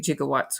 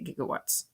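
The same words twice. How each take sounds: First: The word begins with a soft j sound. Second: The word begins with a hard g sound. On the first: The speaker calls it wrong. "we don't say gigawatts" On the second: The speaker calls it right. "we say gigawatts"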